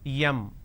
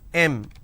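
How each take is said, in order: First: The letter is said in a southern Indian way. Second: The letter is said in the standard way. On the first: The speaker calls it wrong. "in southern India, everybody pronounces that as yum" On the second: The speaker calls it right. "It's pronounced as M"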